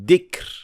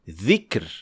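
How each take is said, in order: First: It begins with a hard 'd' sound. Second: It begins with a soft 'th' as in 'this'. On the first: The speaker calls it wrong. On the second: The speaker calls it right.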